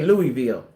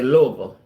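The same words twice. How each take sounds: First: Louisville is pronounced the outsider way. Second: Louisville is pronounced the local way. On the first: This is how the speaker's own group says it. "We say Louisville" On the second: This is how the listener's group says it. "Y'all say Louisville"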